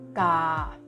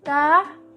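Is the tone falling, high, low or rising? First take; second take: low; high. First: The syllable is said on a low tone. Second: The syllable is said on a high tone. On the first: "tanda nada rendah dibacanya dengan nada rendah juga" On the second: "kita akan membacanya jadi nada tinggi juga"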